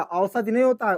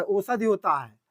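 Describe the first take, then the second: First: औषधि with a flattened first vowel, shown as the mistake; wrong pronunciation. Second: औषधि with a clear full औ at the start; correct pronunciation. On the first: Teacher shows students the wrong way, औषधि said as a mistake. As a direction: say औषधि the wrong way, as the error to avoid. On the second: Teacher gives students the correct औषधि, with a clear औ. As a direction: say औषधि properly, opening on a round औ. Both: Shown as a demonstration. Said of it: "ध्यान दे भैया".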